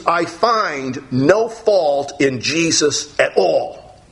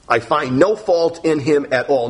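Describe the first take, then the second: First: Drawn out, every word weighed; slow solemn verdict. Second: Said in the usual way. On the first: Acted. Preacher giving Pilate's verdict to the congregation, slow and weighty. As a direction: lay each word down slowly.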